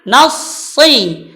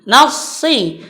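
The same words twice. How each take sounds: The two takes are said the same way.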